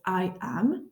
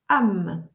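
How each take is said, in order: First: The two words are said separately in full. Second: The two words merge into one short syllable. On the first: "quand elle n'est pas contractée, je prononce" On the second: "Quand elle est contractée, je prononce"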